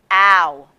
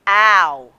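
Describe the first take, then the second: First: The sound is said in a low voice. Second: The sound is said in a low voice.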